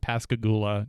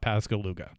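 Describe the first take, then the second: First: The name ends with the sounds 'goo-la'. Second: The name ends with the sounds 'loo-ga'. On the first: The speaker calls it right. "The town's name is Pascagoula" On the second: The speaker calls it wrong. "not Pascaluga"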